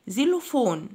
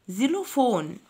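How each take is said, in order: Both takes have the same delivery.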